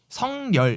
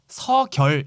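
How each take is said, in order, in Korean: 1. 가운데 자음은 비음 ng 소리예요. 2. 가운데 자음은 그냥 g 소리예요. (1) "성열 이렇게 말하는 사람들이 있어요" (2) "서결 이렇게 말하는 사람들이 있고"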